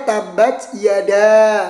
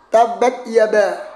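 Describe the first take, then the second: First: The second word is said with a d sound. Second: The second word is said with a b sound. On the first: The speaker calls it right. "Yang ada tabat yada" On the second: The speaker calls it wrong. "bacaannya salah lagi"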